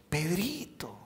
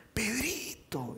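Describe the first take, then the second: First: Softer, tender Pedrito; affectionate diminutive. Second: Higher, soft, very slow Pedrito; affectionate diminutive. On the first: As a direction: say the nickname fondly. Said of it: "en nuestro español que decimos". (diminutivo cariñoso y suave) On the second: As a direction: sing the nickname out fondly. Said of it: "es diferente". (Pedrito tierno, agudo y muy lento) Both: Shown as a demonstration.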